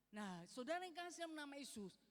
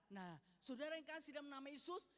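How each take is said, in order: Both takes have the same delivery.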